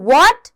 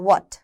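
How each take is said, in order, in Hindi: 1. शब्द ज़ोर देकर बोला गया है, बहुत ज़्यादा बल के साथ। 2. शब्द सपाट तरीके से बोला गया है, बिना ज़ोर के। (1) "मैंने बोला व्हाट। ... थोड़ा सा जोर दिया" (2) "व्हाट नहीं"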